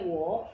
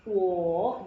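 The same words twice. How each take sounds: First: "wo" short, rising in second tone; changed to second tone. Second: "wo" loud and long, dipping then rising; original third tone. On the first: Teacher shows what it becomes, rising second tone on "wo". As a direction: send "wo" straight up without dipping. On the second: Teacher shows what it was before, loud third tone on "wo". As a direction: stretch "wo" through a full third-tone dip. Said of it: "Jadi tadinya". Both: Shown as a demonstration.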